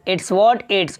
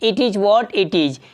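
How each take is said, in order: First: Both 'it is' are squeezed into 'it's'. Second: Both 'it is' are said as two full words. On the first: "short में इट इज को मिलाएंगे तो spoken में तो हो जाएगा इट्स" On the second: "इसको English में बोलते हैं"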